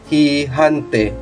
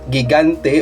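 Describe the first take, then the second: First: Both G sounds are sounded like an H. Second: Neither G is sounded like an H. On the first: "or uh, hihante" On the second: "not gigante"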